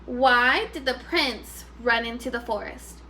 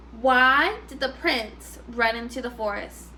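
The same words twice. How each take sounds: The two takes are said the same way.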